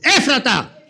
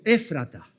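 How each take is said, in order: First: The word is said very loudly. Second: The word is said at normal volume.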